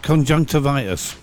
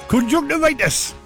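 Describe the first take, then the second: First: It is said in his usual, non-Geordie accent. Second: It is said in a Geordie accent.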